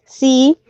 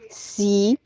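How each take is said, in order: First: "sí" stressed and clearly projected; "sí" as the accented word of a pair; stressed monosyllable. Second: "sí" as the soft, unaccented word of a pair; unstressed monosyllable. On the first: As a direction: give "sí" full weight. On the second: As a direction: let "sí" drop away quietly. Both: Shown as a demonstration. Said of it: "se distingue entre significados en pares de palabras".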